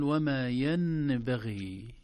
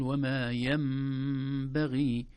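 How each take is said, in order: First: ينبغي with a clear nun before the ba; ينبغي without iqlab; wrong recitation. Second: ينبغي with the nun turned to a nasal mim; slow iqlab: the nun becomes mim in ينبغي; ينبغي chanted with iqlab; correct recitation. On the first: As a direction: demonstrate the error: a plain nun in ينبغي. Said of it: "لا نقول". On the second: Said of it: "بل نقول". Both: Shown as a demonstration.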